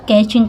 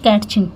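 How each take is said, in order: First: The word is said with no T sound. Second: The word is said with a T sound. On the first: The speaker calls it right. "यहाँ पे कैचिंग पढ़ा जाता है" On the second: The speaker calls it wrong. "ना कि कैचिंग"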